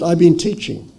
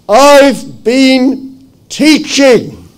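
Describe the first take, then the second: First: It is said at a normal volume. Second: It is bellowed very loudly.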